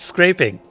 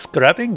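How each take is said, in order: First: The first vowel is a long 'ay' sound. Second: The first vowel is a short 'a' sound. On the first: The speaker calls it right. "No, it's scraping" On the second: The speaker calls it wrong. "I keep trying to pronounce it scrapping"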